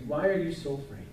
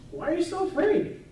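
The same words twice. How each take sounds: First: Gentle repeat. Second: High, sharp rebuke; Jesus rebuking disciples. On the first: Jesus gently asks the disciples again, softly. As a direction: ask it again, quietly and kindly. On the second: Jesus asks the fearful disciples, rising rebuke. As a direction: ask it as Jesus scolding his frightened disciples. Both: Acted. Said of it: "Jesus turns to his disciples and says".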